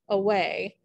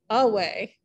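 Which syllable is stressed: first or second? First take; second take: second; first. First: The stress is on the second syllable. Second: The stress is on the first syllable. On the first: The speaker calls it right. "unstressed, stressed in that order. For example" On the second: The speaker calls it wrong. "with the f- emphasis on the first syllable"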